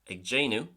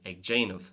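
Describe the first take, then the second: First: The word ends with a W sound. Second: The word ends with a V sound. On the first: This is how it is said in Ulster. "it'll be pronounced with a W sound" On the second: This is how it is said in Munster. "it's religiously pronounced as a V"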